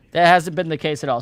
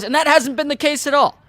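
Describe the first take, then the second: First: Said in the usual way. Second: High-pitched, insistent dismissal; emphatic rebuttal. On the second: Real, not acted. Host rebutting investors' predictions, emphatic and high. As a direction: push it up high, as if amazed anyone thought so.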